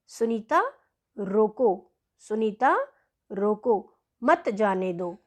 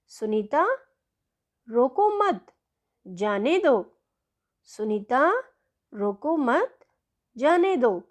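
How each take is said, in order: First: रोको set off alone with a pause, then मत जाने दो as one phrase; pause after रोको. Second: रोको मत joined as one phrase, pause, then जाने दो; pause after मत. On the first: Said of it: "इन दोनों वाक्यों को पढ़िए". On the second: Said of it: "जो दूसरा वाक्य है वो ख वाक्य है". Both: Shown as a demonstration.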